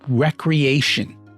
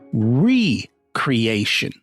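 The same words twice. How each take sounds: First: The first syllable sounds like 'reck'. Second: The first syllable sounds like 'ree'. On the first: Activities done for fun and leisure. "the word recreation" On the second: Creating oneself anew. "he pronounced it differently"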